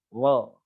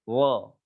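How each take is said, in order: Both takes have the same delivery.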